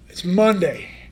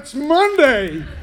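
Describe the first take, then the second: First: It is said in a flat, reluctant tone. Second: It is said in a fiery, enthusiastic tone. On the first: The speaker dreads the start of the week. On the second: The speaker is thrilled the week is starting.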